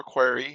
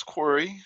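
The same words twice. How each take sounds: First: Quarry said as KWAR-ee; alternative pronunciation. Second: Quarry said as KWOR-ee; first pronunciation variant. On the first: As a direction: say Quarry with a more open vowel, KWAR-ee. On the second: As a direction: say Quarry with a rounded "or" vowel. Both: Shown as a demonstration. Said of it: "however you want to pronounce it".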